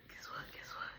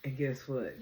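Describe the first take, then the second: First: Whispered, teasing echo; hushed repeats. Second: Said in the usual way. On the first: Real, not acted. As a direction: drop to a whisper, like sharing a secret. Playful whispered repeats of a phrase.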